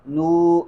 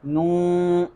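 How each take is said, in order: First: "نو" with a clean oo, no nasality; "نو" as a pure long vowel; pure oral noo. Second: "نو" with the long vowel leaking into the nose; "نو" as a nasal oo; nasalised noo. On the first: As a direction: keep "نو" out of the nose. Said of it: "یہ فرق ہے". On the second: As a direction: show the mistake, nasalising "نو". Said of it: "آواز ناک میں چلی جائے گی". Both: Shown as a demonstration.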